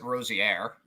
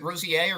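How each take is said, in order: First: Rosier said "ROH-zee-air", with the R heard; final R sounded. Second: Rosier said "ROH-zee-ay", with no R heard at the end; silent final R. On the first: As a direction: end Rosier on "air", keeping the R. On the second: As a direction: end Rosier on an open "ay", French-style. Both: Shown as a demonstration. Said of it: "Is the R silent".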